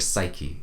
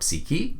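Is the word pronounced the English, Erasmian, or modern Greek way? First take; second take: English; modern Greek. First: It is pronounced in English style. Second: It is pronounced in modern Greek style. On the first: "in English" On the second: "in modern Greek"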